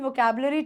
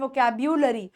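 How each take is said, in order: First: The third syllable is a plain 'bu' sound. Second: The third syllable has a 'byu' sound.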